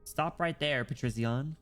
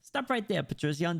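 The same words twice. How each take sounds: First: It is read in a plain natural voice. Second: It is read in the character's put-on voice.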